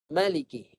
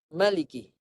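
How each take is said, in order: First: The first vowel is said short. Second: The first vowel is said short.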